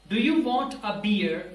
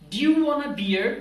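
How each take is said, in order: First: Each word is said fully and separately. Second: The words are shortened and run together. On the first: "ये पूरा sentence है" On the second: "do you को भी आपने short कर दिया"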